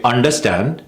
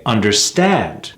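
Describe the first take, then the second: First: UNDERSTAND short, rising, weak STAND; mis-stressed understand. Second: UNDERSTAND slow, falling on long STAND; correct stress on understand. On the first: Coach quoting what wasn't heard, mis-stressed UNDERSTAND. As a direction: skim over STAND in UNDERSTAND. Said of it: "I didn't hear him say". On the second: Coach recalling an actor, stressed under-STAND. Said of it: "I heard him say". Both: Shown as a demonstration.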